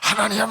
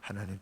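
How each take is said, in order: First: It is called out loudly. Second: It is said quietly.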